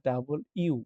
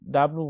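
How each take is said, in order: First: The letter name is said in three full syllables. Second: The letter name is squeezed into two syllables. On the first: The speaker calls it right. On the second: The speaker calls it wrong. "ডাব্লু বলি, ডাব্লু না"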